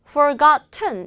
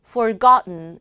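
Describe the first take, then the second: First: The t is released clearly before the n. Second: The t is swallowed into a nasal n sound. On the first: The speaker calls it wrong. "forgotten 이라고 하지 않고" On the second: The speaker calls it right. "forgotten 이라고 합니다"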